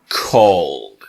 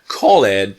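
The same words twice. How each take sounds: First: The ending is just a short d sound. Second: The ending is said as a separate syllable. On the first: The speaker calls it right. "really it's like an apostrophe d" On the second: The speaker calls it wrong. "It's like not called"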